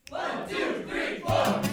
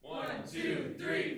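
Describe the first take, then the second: First: The count is said loudly and strongly. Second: The count is said weakly and quietly.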